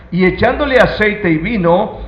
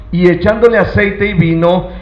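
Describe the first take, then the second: No difference in how they are said.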